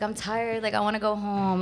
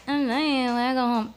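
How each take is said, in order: First: Lightly whiny tired complaint; kinda whiny. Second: Higher, exaggerated whiny mimicry; mocking whine. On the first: Retold or imitated. Telling her friend she wanted to go home, mildly whiny. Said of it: "Like, kinda whiny". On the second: Imitating the rapper mocking her tiredness, whiny and mocking. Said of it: "He mocks me".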